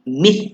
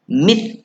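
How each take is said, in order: First: The final consonant is a soft th-like sound. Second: The final consonant is a soft th-like sound.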